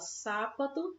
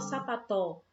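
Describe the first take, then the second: First: The stress is on the first syllable. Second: The stress is on the last syllable. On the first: "A gente não fala sápato" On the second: "a gente não fala sapató"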